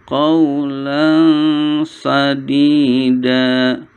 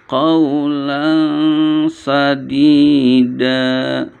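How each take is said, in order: Both takes have the same delivery.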